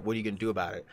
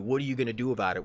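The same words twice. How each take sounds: First: Said in the usual way. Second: Fast, pushy taunt. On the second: Retold or imitated. Coworker taunting him, fast and pushy. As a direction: rush the challenge at him. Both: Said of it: "and he's like".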